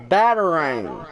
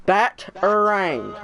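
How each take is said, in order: First: Batarang said as one word, falling at the end; joined-up model pronunciation. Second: Bat, er, rang broken into beats, falling on rang; syllable-by-syllable model. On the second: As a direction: teach Bat, er, rang one piece at a time. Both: Shown as a demonstration. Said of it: "Say it like I say it".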